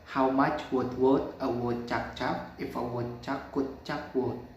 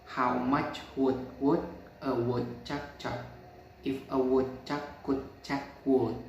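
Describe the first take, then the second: First: It is said at normal speed. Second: It is said slowly.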